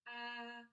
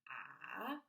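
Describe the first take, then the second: First: The pitch stays level and steady. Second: The pitch dips down then rises again. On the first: "straight across like you were singing" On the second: "goes down and then back up again"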